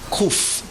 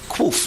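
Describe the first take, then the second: First: It begins with a plain K sound. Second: It begins with a KW sound. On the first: This is how one community says it. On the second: This is how another community says it.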